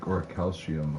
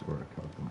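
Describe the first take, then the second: First: The word ends with an extra '-see-um' sound. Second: The word ends with a short '-kum' sound. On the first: The speaker calls it wrong. "I used to pronounce it more like" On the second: The speaker calls it right. "but I think it's orichalcum"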